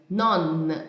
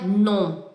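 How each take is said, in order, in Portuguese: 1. O n final é articulado com a língua tocando nos dentes. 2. A vogal é nasalizada, sem um n final claro. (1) "é non, ... A língua toca no dente" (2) "Não é non, não é nasal"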